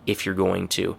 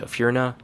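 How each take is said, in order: First: Each word is said clearly and in full. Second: The words merge into one short, blurred chunk.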